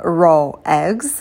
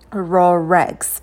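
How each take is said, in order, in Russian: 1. Слова произносятся раздельно, без звука r. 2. Звук r связывает два слова вместе. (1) "Либо raw eggs, но это не совсем удобно" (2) "проще соединить слова с помощью звука r"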